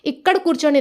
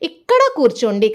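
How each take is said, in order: First: The first word ends without a final 'a' vowel. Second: The first word ends with a light 'a' vowel. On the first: The speaker calls it wrong. "नहीं कहेंगे" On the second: The speaker calls it right. "हल्का से आ की मात्रा सुनाई दे रही है"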